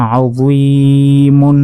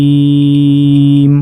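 First: আজুইমুন chanted slowly, long ee then sounded -mun; unpaused ending. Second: আজুইম with ee held very long, closing on m; pausal elongation. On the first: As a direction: keep the mun on the end of আজুইমুন. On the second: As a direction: stretch the ee of আজুইম for three beats and stop on m. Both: Shown as a demonstration. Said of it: "ওয়াকফ করলে".

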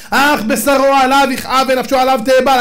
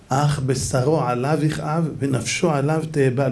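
First: Forceful quotation. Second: Soft, slow, grieving recital; mournful quotation. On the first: Rabbi to the mourners, declaiming the verse loudly. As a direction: proclaim the verse loudly and higher. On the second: Rabbi on the dead man mourning himself, soft and slow. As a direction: let the verse sink down slowly and softly. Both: Acted.

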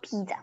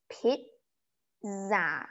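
First: "pizza" as English PEET-suh, run together; English pronunciation. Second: "pizza" slowly split into PIT and ZA; German pronunciation. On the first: Teacher gives the version to avoid, English pronunciation. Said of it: "not pizza". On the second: Teacher shows the German word, slow syllable-by-syllable pronunciation. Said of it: "you pronounce it as pizza". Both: Shown as a demonstration.

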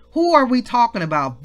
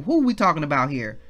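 First: "Who are we talking about" pitched up and louder; emphatic repeated question. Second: Said in the usual way. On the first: Real, not acted. Preacher quizzing the congregation, "are" stressed in a raised voice. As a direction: ask it again with force, leaning on "are".

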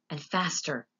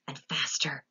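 First: Said in the usual way. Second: Breathless whisper; hushed whisper. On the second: A narrator's reading. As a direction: whisper it as it fades. Accelerating elevator narration.

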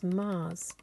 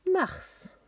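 First: Said in the usual way. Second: "Mars" high and loud, French with sounded r and s; French pronunciation. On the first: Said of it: "Our next one is". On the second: Shown as a demonstration. Teacher giving children the French, "Mars" pronounced marss, high and loud. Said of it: "names of the planets in French".

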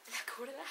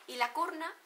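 First: "curda" said with a soft d, laughing; corrected word. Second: "curna" said with an n in place of the d; mispronounced word. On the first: Vlogger correcting herself to "curda" through a laugh. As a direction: fix it to "curda" with a light laugh. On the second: Vlogger stumbling over "curna" before correcting herself. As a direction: slip into "curna" with a nasal n. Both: Shown as a demonstration. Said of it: "la curda va primero".

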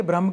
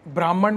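First: "ब्रह्म" as one short syllable, bramh; correct pronunciation. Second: "ब्राह्मण" with a long first aa and a final retroflex n; wrong pronunciation. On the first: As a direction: end "ब्रह्म" on the m, with no -an. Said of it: "ये ब्रह्म कहना चाह रहे हैं". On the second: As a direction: misread it as "ब्राह्मण", ending in -man. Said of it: "ब्राह्मण मत पढ़ना". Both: Shown as a demonstration.

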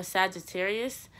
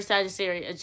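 First: "Sagittarius" slowly, with a clear s at the end; corrected pronunciation. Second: "Sagittarius" ending in a sh sound; mispronounced. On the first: Shown as a demonstration. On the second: Real, not acted. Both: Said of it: "I can't say it right".

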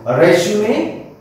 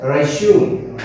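First: "resume" ending in a clear "may"; three-syllable resume. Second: "resume" ending on "zyoom", no "may"; two-syllable resume. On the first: Teacher naming the second job-advertisement term, "resume" as rez-yoo-may. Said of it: "It is also known as or pronounced as". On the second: Teacher giving the alternative pronunciation, "resume" as re-zyoom. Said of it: "also known as or pronounced as". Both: Shown as a demonstration.

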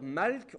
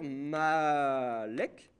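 First: Malk said as one syllable, no vowel between l and k; malk, one tight syllable with the l and k together. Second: Malek slowed right down, a short e slipped between l and k; malek, a little vowel inserted between l and k; two-syllable malek. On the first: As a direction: say malk slowly, the l and k run together. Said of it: "on va dire malk". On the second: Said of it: "on va dire malek". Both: Shown as a demonstration.

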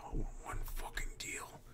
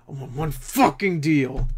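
First: Hushed whisper of I want one fucking deal. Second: Voiced, slow I want one fucking deal with fucking hit hard; emphatic. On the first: Collector whispering his wish for a deal. Whispered then repeated aloud. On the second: Repeat said aloud. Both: Real, not acted.

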